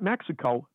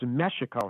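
First: The x is sounded like 'ks'. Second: The x is sounded like 'sh'. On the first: The speaker calls it wrong. "not Mexico" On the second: The speaker calls it right. "pronounced with the X in Near Eastern dialect as Mexico"

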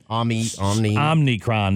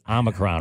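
First: It is said with an extra n after 'om'. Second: It is said with no n after 'om'. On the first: The speaker calls it wrong. "Some people, for some reason, ... They see an N in there" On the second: The speaker calls it right. "I believe that is how you pronounce it"

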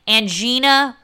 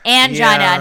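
First: The word does not rhyme with vagina. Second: The word rhymes with vagina. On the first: The speaker calls it wrong. "not angina" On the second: The speaker calls it right. "the correct way to pronounce this word rhymes with vagina"

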